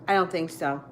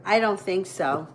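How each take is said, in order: Both takes have the same delivery.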